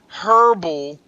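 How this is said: It is said the British or Australian way. "if you're from the U K or Australia, you say you say herbal"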